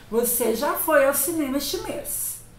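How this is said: It is said as a flat statement.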